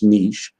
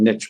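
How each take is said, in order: First: It is said with another regional pronunciation. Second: It is said with a Chicago pronunciation.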